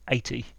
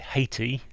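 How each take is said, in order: First: The word starts without any H sound. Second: The word starts with a clear H sound.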